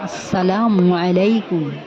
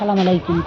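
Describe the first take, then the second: First: The greeting is said carefully and in full. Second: The greeting is hurried, with its opening clipped. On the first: It wishes peace upon the listener. The speaker calls it right. "এইভাবে বললে তার মানে হবে তোমার উপর শান্তি বর্ষিত হোক" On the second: It wishes destruction or death upon the listener. The speaker calls it wrong. "তাড়াহুড়ো করে ... উল্টোপাল্টাভাবে সালাম দেয়"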